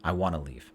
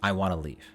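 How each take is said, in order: First: It is said fast with 'want to' reduced. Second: The same.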